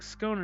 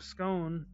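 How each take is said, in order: First: Scone is said in a British-style pronunciation. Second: Scone is said in an American-style pronunciation. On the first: It mocks how people in that country say it. "You know how they say stuff weird in the country, like scone" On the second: It is the speaker's own normal way. "instead of scone"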